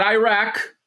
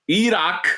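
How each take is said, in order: First: "Iraq" said as "eye-rack"; wrong pronunciation. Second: "Iraq" said as "ee-rock"; correct pronunciation. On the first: Son showing how not to say it, "Iraq" as eye-rack. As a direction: say "Iraq" with a long eye at the start. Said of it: "not Iraq". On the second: Son showing how it is said, "Iraq" as ee-rock. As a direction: say "Iraq" with ee and a broad ah. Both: Shown as a demonstration.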